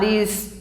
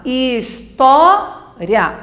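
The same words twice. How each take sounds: First: "história" as his-tó-ri-a, the I and A apart; four-syllable pronunciation. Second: "história" as his-TÓ-ria, with "ria" one quick glide; slow "história", loud long TÓ, then short "ria"; three-syllable pronunciation. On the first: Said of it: "mas também posso falar história". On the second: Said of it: "Eu posso falar história". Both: Shown as a demonstration.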